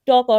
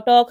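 First: Loud, separate letters ট, ক; letters broken apart. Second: টক said as one loud word; word blended aloud. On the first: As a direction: spell out ট and ক for learners. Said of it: "বর্ণগুলো ভেঙে ভেঙে পড়বে". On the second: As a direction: join the letters into টক. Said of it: "শব্দগুলো সুন্দরভাবে জোরে জোরে". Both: Shown as a demonstration.

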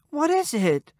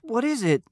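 First: Higher, pleading repeat; more anxious repeat. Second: High, anxious question; worried mumble. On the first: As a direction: press her, worried. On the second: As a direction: ask in alarm. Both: A narrator's reading. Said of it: "He mumbled".

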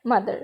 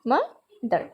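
First: Said in the usual way. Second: mother broken into two beats, ma, pause, ther; teacher's two-part breakdown of mother, with a gap between; split into syllables. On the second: Shown as a demonstration. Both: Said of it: "এটা দুইবার উচ্চারিত হবে".

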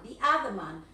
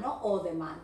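First: "the other man" with "the" as thee; "the other man" said clearly after the mistake; right the other. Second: "other man" without "the", said low; the mistake "other man" said in a low voice; wrong other. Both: Shown as a demonstration.

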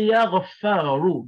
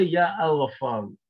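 First: Slow, higher, louder "Ya Ghaffaru", Ya straight into Ghaffaru; article dropped. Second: "Ya Al-Ghaffaru" with Al sounded after Ya; wrong, article kept. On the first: Teacher showing what you say, slow emphatic "Ya Ghaffaru" without Al. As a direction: stretch out "Ya Ghaffaru" with no Al. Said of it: "So you say". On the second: Teacher showing what you don't say, Al kept in "Ya Al-Ghaffaru". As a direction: put an audible Al between Ya and Ghaffaru. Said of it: "you don't say". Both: Shown as a demonstration.

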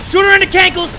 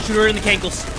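First: High, loud frantic yell; excited shout. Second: Said in the usual way. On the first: Real, not acted. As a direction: yell it mid-fight. Repeat shouted during fight.

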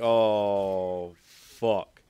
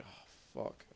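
First: Shouted frustrated swear; loud curse. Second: Under-breath whispered swear; whispered curse. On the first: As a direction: blurt it out loud. Quoting own in-game reaction. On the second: Quoting own in-game dismay. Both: Retold or imitated.

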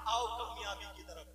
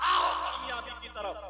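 First: Said in the usual way. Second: Imitated prayer caller. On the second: Preacher quotes the caller to prayer, raised calling voice. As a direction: call people over, as a muezzin would. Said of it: "Mohsin पांच वक्त में कहता".

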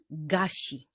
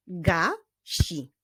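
First: Said in the usual way. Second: GASI split as GA, pause, SI; measured GA... SI; syllable by syllable. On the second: Shown as a demonstration. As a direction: clap out "gasi" in two beats. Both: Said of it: "wyklaskiwali sylaby w poszczególnych wyrazach".

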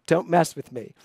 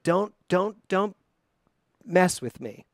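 First: Said in the usual way. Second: Stammering "Don't, don't, don't" before "mess with me"; stumbled wrong take. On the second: Shown as a demonstration. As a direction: trip over "Don't, don't, don't" like a false start. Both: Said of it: "I almost had the wrong word here".

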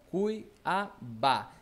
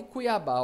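First: CUIABÁ very slowly as cui-a-bá; syllable by syllable. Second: Said in the usual way. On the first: Shown as a demonstration. Teacher showing the last syllable, Cuiabá split slowly. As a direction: break Cuiabá into separated syllables. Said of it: "Está na última". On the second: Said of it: "ó, Cuiabá".

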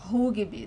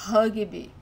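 First: Rugby with an oo vowel and the R as H; Portuguese U. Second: Rugby with an uh vowel and the R as H; English-influenced vowel. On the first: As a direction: say Rugby as "HOO-ghee-bee". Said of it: "the sound of the U". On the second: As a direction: say rugby as "HUH-ghee-bee". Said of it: "we hear the word in English a lot". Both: Shown as a demonstration.

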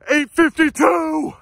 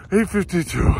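First: High, slow, elated; thrilled. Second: Said in the usual way. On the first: Real, not acted. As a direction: savor each number with joy. First announcing time, elated.

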